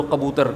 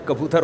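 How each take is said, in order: First: کبوتر said wrongly with a throaty q for the first k, "qabootar"; mispronounced کبوتر. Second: کبوتر said correctly with a plain front k, "kabootar"; corrected pronunciation. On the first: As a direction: start کبوتر with a back-of-throat q sound. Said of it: "ایک کبوتر کو آپ کبوتر بولو". (کبوتر کا غلط تلفظ، ک کی جگہ ق) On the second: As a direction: begin کبوتر with k, not throaty q. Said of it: "مذاق اڑائے گا نا". (کبوتر کا درست تلفظ، ک سے) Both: Shown as a demonstration.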